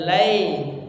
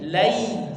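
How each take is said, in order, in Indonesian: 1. Bunyinya seperti e biasa. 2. Vokalnya adalah diftong ai yang utuh. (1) "jangan berubah menjadi e, bukan lai" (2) "tapi lai"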